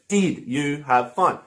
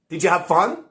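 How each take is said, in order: First: The stress falls on did. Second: The stress falls on have fun. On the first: The speaker calls it wrong. "But I don't stress" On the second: The speaker calls it right. "I don't need to stress did. I can just say"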